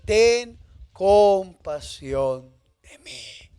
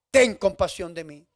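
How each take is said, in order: First: Drawn out very slowly, pleading; slow plea. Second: Said in the usual way. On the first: Acted. Blind man begs Jesus for mercy, very slowly. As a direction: stretch every word of the plea. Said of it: "Jesús lo conoce por su nombre y le dice". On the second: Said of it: "empieza a decir unas palabras".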